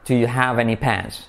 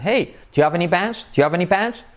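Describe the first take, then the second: First: Slow, measured "Do you have any pens"; unhurried teacher's model with a falling end; careful model. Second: Higher, linked question rising on "pens"; casual asking tune, rising to "pens"; natural intonation. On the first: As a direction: lay out the question slowly, falling on "pens". Plain model before intonation version. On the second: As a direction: call "Hey", then lift "Do you have any pens" as one run. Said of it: "con pronunciación e entonación". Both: Shown as a demonstration.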